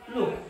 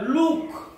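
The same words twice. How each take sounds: First: The vowel is short. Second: The vowel is long. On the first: "दीर्घ नाहीये ह्रस्व आहे कमी आहे" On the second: "जर का लुक असं जर असतं तर मग ते काय होतं दीर्घ होतं"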